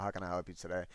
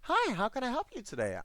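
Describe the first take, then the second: First: It sounds annoyed and irritated. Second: It sounds friendly and not annoyed.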